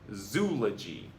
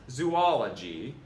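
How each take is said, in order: First: The word rhymes with eulogy. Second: The word does not rhyme with eulogy. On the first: The speaker calls it right. "it's just zoology. Rhymes with eulogy" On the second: The speaker calls it wrong. "It's not zoology"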